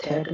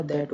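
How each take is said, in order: First: "थैट" with aspirated th; wrong th sound. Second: "दैट" starting with dental d; correct d sound. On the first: Teacher showing the mistake in that, th mispronunciation. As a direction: say "थैट" starting with unvoiced t-h. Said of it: "थैट नहीं होगा". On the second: Teacher giving the right that, dental-d pronunciation. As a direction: say "दैट", voiced d for th. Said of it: "दैट होगा". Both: Shown as a demonstration.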